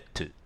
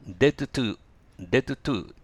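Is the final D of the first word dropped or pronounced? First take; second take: dropped; pronounced. First: The final D is dropped before 'to'. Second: The final D is pronounced before 'to'. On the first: The speaker calls it right. "だからD 発音しない。でもto 発音する。" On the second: The speaker calls it wrong. "言いづらいですね。"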